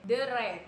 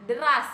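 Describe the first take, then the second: First: The word ends in an e sound. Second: The word ends in an as sound.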